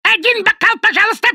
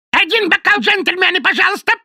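First: Very high, louder squawking bird voice; shrill parrot cry. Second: Very high, squawking bird voice; shrill parrot cry. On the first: Parrot repeating its bar order, shrill louder squawk. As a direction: screech the order like a barroom parrot. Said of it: "Это с тех пор, когда он жил в баре". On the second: Parrot begging drinks from the gentlemen, shrill squawk. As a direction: screech it like a bar parrot. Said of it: "пронзительно крикнул он". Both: A narrator's reading.

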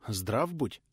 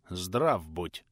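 First: Taken aback. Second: Lower, stony voice of a stern prince; cold greeting. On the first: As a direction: blurt it out, caught off guard. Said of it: "опешив от неожиданности". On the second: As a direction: greet him coldly, like carved stone. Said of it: "холодно отвечал высокий мужчина". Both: Acted.

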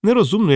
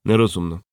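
First: Higher, rising and loud on Нерозумно; emphatic declaration. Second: Said in the usual way. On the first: A narrator's reading. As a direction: announce «Нерозумно» as a firm opinion. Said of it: "заявив я". («Нерозумно» піднесено, з викликом) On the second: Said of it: "погодився Бородань".

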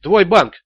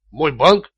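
First: Firm, punched confirmation; insistent repetition. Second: Dull, uncomprehending echo as a question; dazed repetition. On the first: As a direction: throw it back as a demand. Interrogator insists after dazed echo. (с нажимом, требовательно) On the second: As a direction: repeat it blankly, not following. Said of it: "тупо повторил Раттер". (тупо переспрашивая) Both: A narrator's reading.

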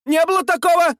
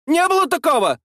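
First: High woman's voice, stress on такого; indignant denial. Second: High woman's voice, stress on было; indignant denial. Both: A narrator's reading. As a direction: deny it hotly, way up high. Woman denies loudly. (возмущённое отрицание)

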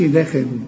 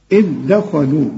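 First: دخلوا said in everyday Egyptian fashion; the wrong, colloquial دخلوا. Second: دخلوا with a thin د and a clear خ; correct recitation. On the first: Teacher to student: the wrong colloquial دخلوا. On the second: Teacher to student: the correct Quranic دخلوا. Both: Shown as a demonstration. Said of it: "ما تقولش دخلوا".

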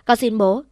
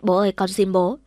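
First: The plea pushed harder, louder, ending in a rise; louder tearful pleading. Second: A touch of a crying plea, rising at the end; tearful pleading. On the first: Daughter begging her father again, louder mock-tearful plea. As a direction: beg again with more force, a touch of tears. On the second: Daughter begging her angry father, mild tearful plea. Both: Acted. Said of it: "khóc lóc van xin".

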